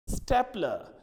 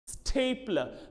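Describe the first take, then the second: First: The first syllable does not sound like 'stay'. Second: The first syllable sounds like 'stay'. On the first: The speaker calls it wrong. "very many people I have seen pronouncing this as stapler" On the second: The speaker calls it right. "when we have s t a, that is stay"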